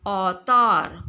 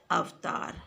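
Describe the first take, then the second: First: औतार loud, opening on "au"; wrong pronunciation. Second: अवतार with a clear "av"; correct pronunciation. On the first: Teacher showing the incorrect word, औतार with "au". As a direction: say औतार as "au-taar", with no "v". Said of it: "अशुद्ध है". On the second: Teacher answering with the correct word, अवतार with "av". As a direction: say अवतार as "av-taar". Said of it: "उसका शुद्ध शब्द क्या है". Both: Shown as a demonstration.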